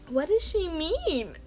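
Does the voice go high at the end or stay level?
high. The voice goes very high at the end.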